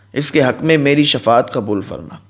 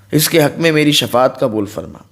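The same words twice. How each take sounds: The two takes are said the same way.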